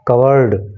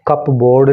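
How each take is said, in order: First: It is said as one word, cubberd, without p. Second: It is said as two parts, cup and board. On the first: The speaker calls it right. "बल्कि इसका pronunciation है कवर्ड" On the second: The speaker calls it wrong. "इसका pronunciation कप बोर्ड नहीं"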